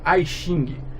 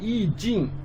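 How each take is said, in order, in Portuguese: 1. O termo é pronunciado à maneira inglesa. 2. O termo é pronunciado à maneira chinesa. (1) "nunca I Xing. Tem gente que lê isso aqui em inglês" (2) "na verdade I Jin"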